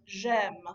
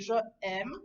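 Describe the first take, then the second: First: The two words merge into one syllable. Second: The two words are split by a glottal break. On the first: The speaker calls it right. "we will elide it" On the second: The speaker calls it wrong. "we don't want to make a glottal stop here"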